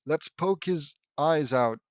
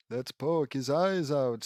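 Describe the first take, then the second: First: Said in the usual way. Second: Put-on slow, lightly Transylvanian accent; a measured Transylvanian lilt. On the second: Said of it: "in a Transylvanian accent".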